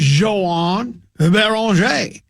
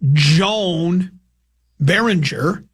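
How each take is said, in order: First: The name is pronounced in its native way. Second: The name is pronounced in an Americanized way. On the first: The speaker calls it right. "His name is" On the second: The speaker calls it wrong. "It's not"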